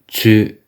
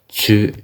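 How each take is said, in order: First: The syllable begins with a blended ts sound. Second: The same.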